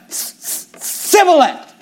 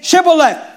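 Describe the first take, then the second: First: The word begins with a plain s sound. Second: The word begins with an sh sound. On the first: The speaker calls it wrong. "For he could not frame to pronounce it right" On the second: The speaker calls it right. "why don't you say Shibboleth?"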